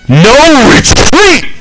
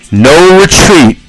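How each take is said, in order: First: It is said with loud enthusiasm. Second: It is said flatly, without enthusiasm.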